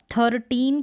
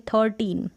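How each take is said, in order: First: First "थर्टीन" with the r fully rolled; full-r mispronunciation. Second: "थर्टीन" with a light, almost silent r; near-silent r. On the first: Teacher showing what to avoid, "थर्टीन" with full r. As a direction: sound every bit of r in "थर्टीन". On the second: Teacher modelling the replacement, "थर्टीन" with near-silent r. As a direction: let the r in "थर्टीन" nearly vanish. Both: Shown as a demonstration. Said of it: "थोड़ा हल्का सा silently आ रहा है".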